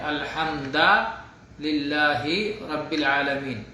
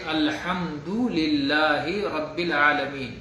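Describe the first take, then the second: First: The vowel after 'alhamd' is an 'a' sound. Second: The vowel after 'alhamd' is a 'u' sound. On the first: The speaker calls it wrong. "अल्हम्दो के बजाय अल्हम्दा पढ़ देता है" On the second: The speaker calls it right. "ये आयत के पढ़ने का सही तरीका है।"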